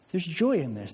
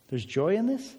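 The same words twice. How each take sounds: First: Said in the usual way. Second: Rising, doubtful question on this; mock surprise. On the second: Pastor feigning the congregation's disbelief, mock surprise. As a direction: ask it as if joy were news.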